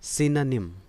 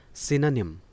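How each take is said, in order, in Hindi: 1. पहले अक्षर में छोटा 'i' स्वर है। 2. पहले अक्षर में छोटा 'i' स्वर है।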